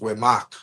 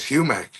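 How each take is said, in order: First: The name starts with a w sound: Wemak. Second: The name starts with an h sound: Humac. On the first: This is the name's original pronunciation. "the original pronunciation was Wemak" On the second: This is a mispronunciation that later stuck. "he mispronounced it as Humac"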